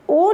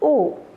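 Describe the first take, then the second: First: The vowel is said strongly and abruptly. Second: The vowel is said softly and lightly. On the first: The speaker calls it wrong. "ओ नहीं" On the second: The speaker calls it right. "हल्का सा बोलेंगे इसको"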